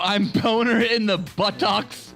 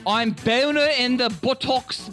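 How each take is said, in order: First: It is said in the speaker's normal accent. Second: It is said in a put-on British accent.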